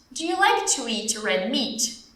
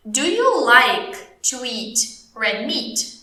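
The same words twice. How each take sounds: First: Slow but connected teacher question; slow model question. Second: Very slow English, broken into chunks; very slow model question. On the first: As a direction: ask it slowly in one flow. Teacher repeats question without breaks. (pergunta lenta, sem pausas) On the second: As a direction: ask it chunk by chunk, with pauses. Teacher models question, then repeats. (pergunta bem devagar, em blocos pausados) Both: Shown as a demonstration.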